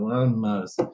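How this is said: It is said in a bored, worn-out way.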